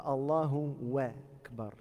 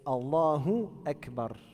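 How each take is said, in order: First: The words are linked with a w sound. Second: Akbar starts with a clear glottal stop. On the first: The speaker calls it wrong. "C'est pas Allahu wa Akbar" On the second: The speaker calls it right. "C'est Allahu Akbar. Hamzat qata'"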